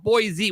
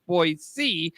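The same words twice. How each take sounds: First: Put-on "Boise" said as "BOY-zee". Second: Put-on "Boise" said as "BOY-see". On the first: Showing how outsiders say it, "Boise" as "boy-zee". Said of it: "People call it Boise when". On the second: Giving the actual pronunciation, "Boise" as "boy-see". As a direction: keep a hissed S sound in "Boise". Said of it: "it's actually pronounced Boise". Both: Shown as a demonstration.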